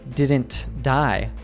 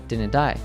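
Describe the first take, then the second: First: The T in didn't is clearly pronounced. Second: The T in didn't is dropped. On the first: "he didn't say" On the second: "he said"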